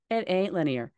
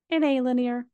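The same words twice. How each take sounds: First: Said in the usual way. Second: It ain't linear, much higher and louder, punched hard; emphatic declaration. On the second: Real, not acted. Host insisting to listeners, loud and high. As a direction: hit every word of It ain't linear.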